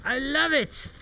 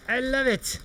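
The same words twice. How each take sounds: The two takes are said the same way.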